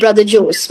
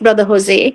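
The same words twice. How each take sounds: First: The name is said with an Indian pronunciation. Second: The name is said with a non-Indian pronunciation. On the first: This is how locals say the name. "So he's called Brother Jose" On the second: This is the name's original form. "when actually it's Brother Jose"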